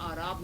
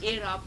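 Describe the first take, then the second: First: The word begins with an 'ah' vowel. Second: The word begins with an 'eh' vowel. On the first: The word would mean rustic people. The speaker calls it wrong. "आराब लोग पढ़ते हैं, वो गलत है" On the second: The word means the vowel marks. The speaker calls it right. "इसे एराब कहते हैं"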